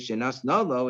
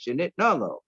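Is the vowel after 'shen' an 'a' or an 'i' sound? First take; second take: a; i. First: The vowel after 'shen' is an 'a' sound. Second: The vowel after 'shen' is an 'i' sound. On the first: It was given actively. The speaker calls it wrong. "it doesn't say shenas nolo" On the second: It was given passively. The speaker calls it right. "it says shenit nolo"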